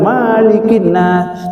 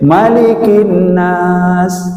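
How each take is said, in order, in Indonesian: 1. Vokal setelah M itu panjang. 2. Vokal setelah M itu pendek. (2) "yang boleh itu hanya pendek"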